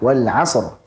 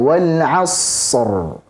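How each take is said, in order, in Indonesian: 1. Bunyi s terpotong tiba-tiba. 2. Bunyi s ditahan terlalu lama. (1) "seolah-olah shadnya kayak qalqalah wal 'asr langsung" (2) "Jangan juga terlalu panjang aliran suaranya"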